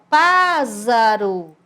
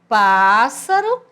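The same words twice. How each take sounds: First: The middle consonant is a voiced z sound. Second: The middle consonant is a voiceless s sound. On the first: The speaker calls it wrong. "ele ia ficar com o som de Z" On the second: The speaker calls it right. "mesmo entre vogais, ele tem som de S"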